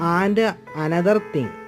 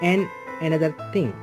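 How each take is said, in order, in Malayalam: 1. 'and' പൂർണ്ണമായി പറയുന്നു. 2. 'and' 'n' ആയി ചുരുക്കുന്നു.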